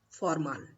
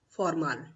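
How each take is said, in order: The two takes are said the same way.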